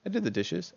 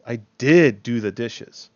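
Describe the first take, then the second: First: Said in the usual way. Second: "did" punched much louder; protest, coming down hard on "did"; angry emphasis on did. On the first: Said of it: "you're putting emphasis on there". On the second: Shown as a demonstration. Teacher answers someone who said you didn't, "did" stressed angrily. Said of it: "like you're angry".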